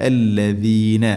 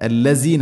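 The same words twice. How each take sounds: First: الذين with a doubled, held lam; الذين said properly, lam stressed; الذين correct recitation form; correct reading. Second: الذين said with the lam too light, not doubled; الذين mispronounced on purpose, single lam; الذين as a wrong example, lam not held; wrong reading. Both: Shown as a demonstration. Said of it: "الذين അല്ല".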